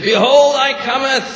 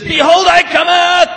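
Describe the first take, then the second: First: It is said with normal emphasis. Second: It is said with strong, loud emphasis.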